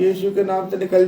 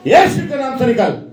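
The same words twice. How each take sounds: First: It is said in a meek, begging tone. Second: It is said in a loud, firm, commanding tone. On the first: The evil spirit is being begged to leave. The speaker calls it wrong. "तेरे हाथ जोड़ रही ... ऐसे बोलेंगे ना" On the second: The evil spirit is being ordered to leave. The speaker calls it right. "ऐसे बोलेंगे"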